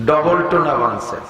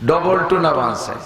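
Both takes have the same delivery.

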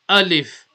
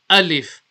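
No difference in how they are said.

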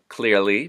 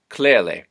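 First: The word ends with an ee sound. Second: The word ends with a short i sound. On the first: "The E sound at the end of a word" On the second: "becomes an I"

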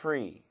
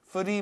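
First: It is said with an English-style sound. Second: It is said with a Korean-style sound. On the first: The speaker calls it right. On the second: The speaker calls it wrong.

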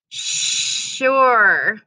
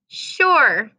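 First: The word is said very slowly and drawn out. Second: The word is said at a normal speed.

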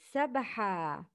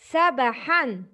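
First: The word ends with a long 'a' vowel. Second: The word ends with an 'n' sound. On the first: "When you make mad, because of stopping, you say" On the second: "It's a tanween with fatha in the end of the word"

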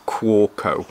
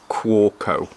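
First: The middle consonant is sounded as a W. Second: The same.

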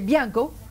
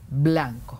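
First: It is said fast with the l dropped. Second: It is said slowly with the l pronounced. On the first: The child rushes the word. The speaker calls it wrong. "hablando rápido porque el niño es impulsivo, dice bianco" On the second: The word is articulated carefully. The speaker calls it right. "No, a ver, lentamente, blanco"

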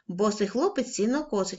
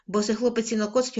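First: It is read at a quicker pace. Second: It is read at the quickest pace. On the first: "кожного разу будемо пришвидшувати темп" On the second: "кожного разу будемо пришвидшувати темп"

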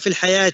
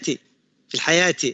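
First: The i vowel in the first word is weak. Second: The i vowel in the first word is strong. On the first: The speaker calls it wrong. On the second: The speaker calls it right.

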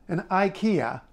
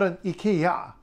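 First: The name is pronounced the English way. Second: The name is pronounced the Swedish way. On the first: The speaker calls it right. "IKEA being the English pronunciation of the store" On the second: The speaker calls it wrong. "not an IKEA"

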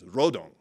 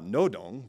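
First: The word begins with an R sound. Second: The word begins with an N sound. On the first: This is how it is said in the North. The speaker calls it right. "that's how they'd say it in North Korea" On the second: This is how it is said in the South. The speaker calls it wrong. "that's a South Korean pronunciation"

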